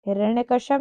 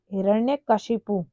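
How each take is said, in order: First: हिरण्यकश्यप, ending in shyap; quick हिरण्यकश्यप with no final u; wrong pronunciation. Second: हिरण्यकशिपु, ending in shipu; correct pronunciation. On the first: Teacher showing the common error, हिरण्यकश्यप ending shyap. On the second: Teacher giving the right name, हिरण्यकशिपु ending shipu. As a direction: say हिरण्यकशिपु with clear i and final u. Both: Shown as a demonstration. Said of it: "हिरण्यकश्यप नहीं".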